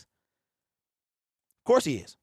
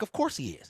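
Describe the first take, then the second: First: Slow drawn-out. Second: Said in the usual way. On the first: Real, not acted. Host insisting to doubters that Wilson is the same, slow and drawn out. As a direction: stretch "Of course he is" out very slowly.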